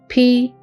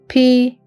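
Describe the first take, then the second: The two takes are said the same way.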